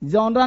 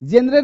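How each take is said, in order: First: It is said as 'jonra' with an extra final vowel. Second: It is said as 'jenre' with an 'e' vowel. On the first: "जॉनरा नहीं" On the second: "जेनरे नहीं"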